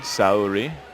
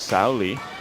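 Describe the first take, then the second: First: The consonant sounds like an American R. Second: The consonant sounds like an L. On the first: This is how some speakers in the US say it. "use an Americanized pronunciation" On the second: This is how it is said in Japan. "in Japan it is more proper to say it with the L sound"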